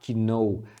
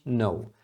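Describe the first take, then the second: First: A K sound is heard before the word. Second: No K sound is heard before the word. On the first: The speaker calls it wrong. "é um erro comum, principalmente de alunos iniciantes, pronunciarem esse K" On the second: The speaker calls it right. "Mas não é assim, é simplesmente no"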